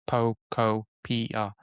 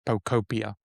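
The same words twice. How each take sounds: First: Every syllable is given even Japanese-style weight. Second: It is said with English-style stress and vowels. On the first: This follows the actual pronunciation. The speaker calls it right. "very Japanese approach of every syllable" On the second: This is how many people say it. The speaker calls it wrong. "lot of people have been saying Pocopia as the which in the in English kind of wording it makes sense"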